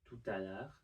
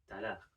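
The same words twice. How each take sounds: First: The phrase is said in full, every syllable. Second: The phrase is shortened, with sounds dropped. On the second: "can just become"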